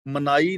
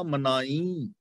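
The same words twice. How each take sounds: First: ਮਨਾਈ with a plain oral final ee; wrong reading demo. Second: ਮਨਾਈ ending on a nasalised ee, as ਮਨਾਈਂ; correct reading demo. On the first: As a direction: say ਮਨਾਈ with no nasal on the last vowel. (ਮਨਾਈ, ਅਖੀਰ 'ਤੇ ਬਿਨਾਂ ਬਿੰਦੀ ਦੇ) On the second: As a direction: let the last vowel of ਮਨਾਈ ring through the nose. (ਮਨਾਈ ਨੂੰ 'ਮਨਾਈਂ' ਵਾਂਗ ਨਾਸਕੀ ਉਚਾਰਨ) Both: Shown as a demonstration. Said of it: "ਮਨਾਈ ਨਹੀਂ ਪੜਨਾ".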